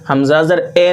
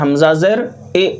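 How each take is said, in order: First: The final vowel is a mid 'e' sound. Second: The final vowel is a clear long 'ee'. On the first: The speaker calls it wrong. "नहीं। हमज़ा ज़ेर ए पढ़ेंगे तो ये मजहूल है" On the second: The speaker calls it right. "इसको क्या पढ़ना है?"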